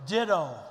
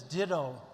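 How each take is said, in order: First: Ditto thrown out much louder as the punchline; punchy ditto. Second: Said in the usual way. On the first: Retold or imitated. Speaker telling the audience Sam's reply, a loud punchline. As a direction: land "Ditto." hard and loud, like a payoff.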